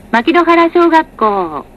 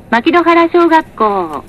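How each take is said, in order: Both takes have the same delivery.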